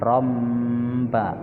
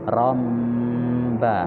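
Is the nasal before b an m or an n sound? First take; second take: m; m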